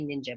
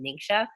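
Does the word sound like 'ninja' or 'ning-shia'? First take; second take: ninja; ning-shia. First: The word sounds like 'ninja'. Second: The word sounds like 'ning-shia'. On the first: The speaker calls it wrong. "I actually mispronounce it most of the time. I say ninja" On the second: The speaker calls it right. "but it's actually Ningxia"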